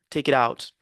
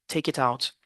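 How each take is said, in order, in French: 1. Ça se dit avec un accent américain. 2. Ça se dit avec un accent britannique. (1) "En anglais américain" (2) "En british"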